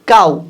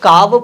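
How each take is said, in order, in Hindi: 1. शब्द का अंत oo स्वर से होता है। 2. शब्द का अंत v की ध्वनि से होता है। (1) "इसको हम लोग पढ़ते काऊ" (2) "क्या आपने कभी इसको काव पढ़ते हुए सुना है"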